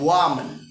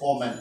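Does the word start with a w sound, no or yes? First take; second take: yes; no. First: It starts with a clear w sound. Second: It starts with a vowel, sounding like omen. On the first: It means a female person. The speaker calls it right. "So you have to pronounce the word as W O M A N, woman" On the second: It sounds like a word for a bad sign. The speaker calls it wrong. "So you are pronouncing this word as omen"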